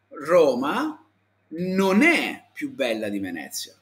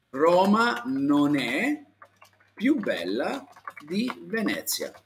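First: Said in the usual way. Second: "Roma non è più bella di Venezia" said slowly, word by word; slow model sentence. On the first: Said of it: "così lo puoi dire". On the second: Shown as a demonstration. Teacher answering Luis with a slow model sentence. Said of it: "così".

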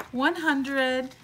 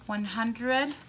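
First: Higher and louder with real excitement; excited recount. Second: Said in the usual way. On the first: Real, not acted. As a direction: recount the bills thrilled. Recounting cash in disbelief.

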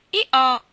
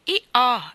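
First: Loud, high two-note hee-haw; child's eager hee-haw; donkey bray. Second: Earnest, raised two-note hee-haw; solemn donkey call, slightly less high; solemn bray. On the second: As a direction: bray it gravely but loudly, like a child taking it seriously. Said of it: "ripeté Lottie in tono solenne". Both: A narrator's reading.

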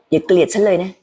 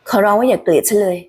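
First: Pleading. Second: A stronger, more urgent plea; begging harder. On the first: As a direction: gently ask not to be hated. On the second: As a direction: push the begging up a notch. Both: Acted. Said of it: "ลองคิดถึงเสียงของ Haley".

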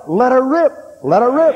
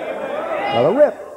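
First: High, loud "Let her rip." flung out; defiant shout. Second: Drawn out slowly. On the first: Preacher shouting defiance at fear of the bomb. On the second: Slow drawn-out third repeat. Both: Real, not acted.

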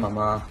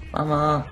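First: Said in the usual way. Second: Higher, louder cry of Mama; half-joking shout for mum; mock call for mum. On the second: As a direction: yell Mama like a scared kid.

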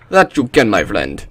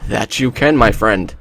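First: Put-on horrible Russian accent. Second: Lightly put-on Russian accent; horrible Russian accent. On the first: Player retrying his reply, horrible Russian accent. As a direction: swoop down through a bad Russian accent. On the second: Player answering a game character, bad Russian accent. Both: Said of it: "that's a horrible Russian accent".

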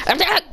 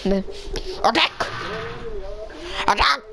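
First: Higher robotic battle call. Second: Flat, soft robotic call. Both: Shown as a demonstration. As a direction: try for a robot voice. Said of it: "I'm trying to do a robotic voice".

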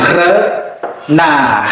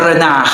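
First: Renard slowly, with a gap after the first syllable. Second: Said in the usual way. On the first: Shown as a demonstration. Teacher models renard for learners, syllable by syllable. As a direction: split renard into two drawn-out parts.

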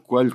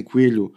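First: "coelho" said with an open A sound, like coálho. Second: "coelho" said with a closed, narrow E in the first syllable. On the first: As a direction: open the vowel of "coelho" to a broad A. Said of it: "coelho com o A aberto". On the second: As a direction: say "coelho" with the tight E of some regions. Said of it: "comunidades que dizem coelho com o E fechado". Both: Shown as a demonstration.

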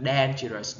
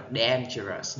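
First: "dangerous" with the wrong first vowel, not the long A; mispronounced dangerous. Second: "dangerous" with a long A as in "day"; correct dangerous. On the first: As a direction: demonstrate a mistaken vowel in "dangerous". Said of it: "không thể nào đọc là". (đọc sai âm đầu của "dangerous") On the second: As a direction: say "dangerous" as DAYN-juh-rus. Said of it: "mà phải đọc là". (đọc "dangerous" với âm ây) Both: Shown as a demonstration.

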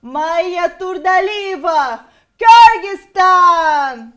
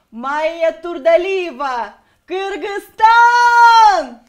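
First: English accent pageant announcement, slow and loud; English accent, shouted and drawn out. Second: Kyrgyz accent pageant announcement, slow and loud. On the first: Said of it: "Давайте с английским акцентом". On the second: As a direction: Kyrgyz accent, shouted and drawn out. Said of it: "с кыргызским акцентом". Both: Shown as a demonstration.

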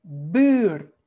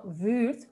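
First: 'buurt' with a hard, loud B and long ü; 'buurt' corrected, firm b at the start; strong Dutch B. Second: 'buurt' with a weak, v-like first sound; wrong B demo. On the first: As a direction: punch the B of 'buurt', then hold the vowel. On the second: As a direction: show the mistake: 'buurt' sounding like 'vuurt'. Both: Shown as a demonstration. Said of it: "B, no buurt".

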